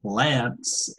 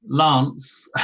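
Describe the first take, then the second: First: American "Lance" with a short flat a; American accent on "Lance", front vowel; American pronunciation. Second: "Lance" with a long ah; southern English "Lance", open back vowel; British pronunciation. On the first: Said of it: "if I did an American accent". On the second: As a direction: say "Lance" to rhyme with British "dance". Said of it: "when I say his name". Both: Shown as a demonstration.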